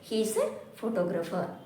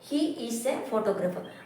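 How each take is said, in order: First: He is is contracted into one syllable. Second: He is is said as two full words.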